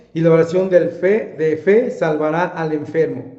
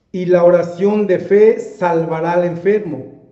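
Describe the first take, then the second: The two takes are said the same way.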